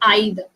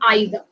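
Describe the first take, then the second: First: The first vowel sounds like 'eye'. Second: The first vowel sounds like 'eye'.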